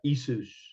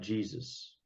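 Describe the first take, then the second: First: The name begins with a vowel sound. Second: The name begins with a J sound. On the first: The older form, before the J was added. "it was uh, Isus" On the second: The altered form with a J put in. "not Jesus"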